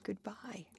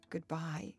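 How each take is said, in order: First: Much softer, dying-away farewell; fading goodbye. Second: Faltering goodbye. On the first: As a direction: let it fall into near silence. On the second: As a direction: let the word tremble out. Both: A narrator's reading. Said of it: "she stammered".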